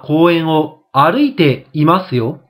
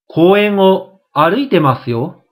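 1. 'masu'の前の'i'の音は残る。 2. 'masu'の前の'i'の音は落ちる。

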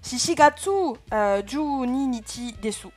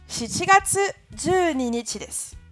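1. Elle est prononcée avec un fort accent français. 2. Elle est prononcée avec une prononciation japonaise naturelle. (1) "Et avec un bon accent français" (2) "Je vous la fais quand même correctement"

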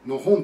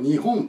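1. 最初の音節はあいまいな音にこもっている。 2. 最初の音節「ni」ははっきり発音されている。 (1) "にがあーといういい加減の音になって" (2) "やっぱり日本と言ってほしいですよね"

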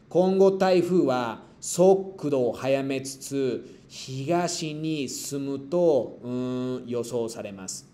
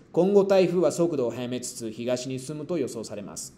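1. La oración se lee despacio. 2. La oración se lee rápido.

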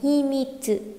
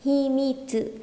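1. Âm tsu cuối được đọc nhẹ và giảm nhẹ. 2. Âm tsu cuối được đọc nhẹ và giảm nhẹ.

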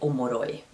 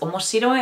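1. A középső shi szótagot kihagyjuk. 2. A középső shi szótagot kiejtjük. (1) "ami ugye így kikapod a szóbelsejét" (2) "az azt jelenti, hogy érdekes"

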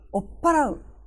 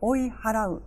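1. "p" を詰めた音で言います。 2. "oi" と "h" の音で言います。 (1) "追いのいが小さなつになるんですね。詰まった即音に変わって" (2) "追い払うとも言いますが"

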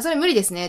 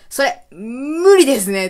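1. 一気に、間を空けずに言います。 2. 最初の単語の後で間をとって、伸ばして言います。

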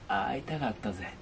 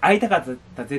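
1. 最初の母音は、エッジボイスの、ざらついた声です。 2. 最初の母音は、普通の澄んだ声です。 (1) "会いたかったぜっていう、これもまたね、エッジボイス" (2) "その会いたかったぜっていうんじゃなくて"

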